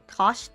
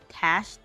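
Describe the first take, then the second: First: The vowel sounds like the one in 'cot'. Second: The vowel sounds like the one in 'cat'. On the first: "Her name is like Tosh" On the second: "But I call her Tash"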